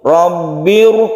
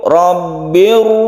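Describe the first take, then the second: First: The r is pronounced heavy and full. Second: The same.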